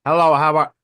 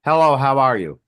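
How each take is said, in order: First: Louder Chinese movie voice; Chinese movie imitation. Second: Mock Japanese movie voice; Japanese movie imitation. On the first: Showing friends a Chinese movie, mock movie voice. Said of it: "here's a Chinese movie". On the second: Showing friends a Japanese movie, mock movie voice. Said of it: "here's a Japanese movie". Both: Shown as a demonstration.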